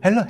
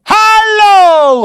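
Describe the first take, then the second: First: It is said quietly with ordinary energy. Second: It is shouted loudly with sudden energy. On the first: The speaker calls it wrong. "hello가 아니라" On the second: The speaker calls it right. "미친 것처럼 소리를 지르라는 거예요"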